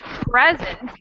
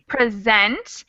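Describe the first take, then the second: First: The stress is on the first syllable. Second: The stress is on the second syllable. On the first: It means a gift. "the first syllable accent would be a gift" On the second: It means to show something. "This word has an accent on the second syllable"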